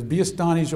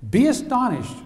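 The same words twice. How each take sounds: First: Said in the usual way. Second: Higher, louder "Be astonished" hit hard; preached command. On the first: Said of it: "Here it says". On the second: Shown as a demonstration. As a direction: call the church to astonishment. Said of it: "church, I'll say church".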